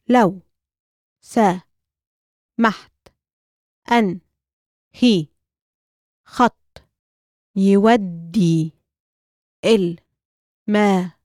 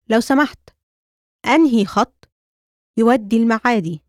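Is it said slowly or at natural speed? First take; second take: slowly; natural speed. First: It is said slowly, broken into parts. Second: It is said at natural conversational speed.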